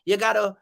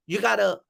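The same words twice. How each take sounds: The two takes are said the same way.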